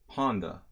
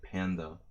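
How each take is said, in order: First: It is said with a Hungarian pronunciation. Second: It is said with an American pronunciation. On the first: "They say panda" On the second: "like an American"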